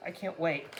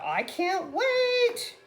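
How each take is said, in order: First: Said in the usual way. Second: High, drawn-out, belting showbiz voice. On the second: Acted. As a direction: belt it out big, holding the last word. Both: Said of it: "That's my [name], [name] Mer-, [name] voice".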